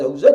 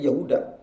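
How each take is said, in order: First: The last syllable starts with a z sound. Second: The last syllable starts with a d sound. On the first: This is the original form of the name. "Yahuza jadi Yahuda" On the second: This is the form the name changed into. "jadi Yahuda"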